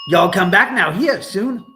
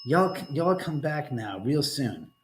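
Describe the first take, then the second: First: Bright, loud Southern hillbilly send-off; hillbilly farewell. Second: Slow, drawn-out Southern hillbilly drawl; a slow, easy Southern hillbilly drawl; slow hillbilly farewell. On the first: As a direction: belt it like a Beverly Hillbillies goodbye. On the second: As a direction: stretch each word like a lazy Southern goodbye. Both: Retold or imitated. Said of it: "That was from the Beverly Hillbillies".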